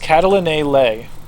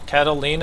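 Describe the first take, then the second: First: The name ends with a drawn-out 'ay' sound. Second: The name ends with an 'ee-na' sound. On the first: The speaker calls it wrong. "sounding it out as improperly as possible" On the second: The speaker calls it right. "I think is how you're supposed to say it"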